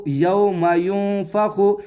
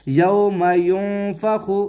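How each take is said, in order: The two takes are said the same way.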